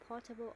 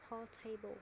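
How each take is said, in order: First: "portable" with a short unstressed middle, PORT-uh-bul; "portable" with a weak schwa in the middle; first-syllable stress PORTABLE. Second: "portable" said as por-TAY-bul; "portable" with a long AY in the middle; mispronounced PORTABLE. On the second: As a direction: say "portable" with a full "table" at the end. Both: Shown as a demonstration. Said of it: "is it portable or portable".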